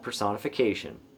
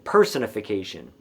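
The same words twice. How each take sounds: First: The stress falls near the end of the word. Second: The stress falls on the first part, person.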